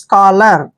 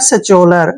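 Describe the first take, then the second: First: It begins with an 'sk' sound, 'skolar'. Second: It begins with an 's-ch' sound, 'sacholar'. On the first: The speaker calls it right. "क्या पढ़ना है स्कॉलर" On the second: The speaker calls it wrong. "जो कि गलत है"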